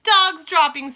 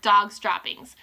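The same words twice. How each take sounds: First: High, loud Dog's droppings shout. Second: Said in the usual way. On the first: Acted. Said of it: "they shouted". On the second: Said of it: "the dreaded cry of".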